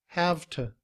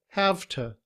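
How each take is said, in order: No difference in how they are said.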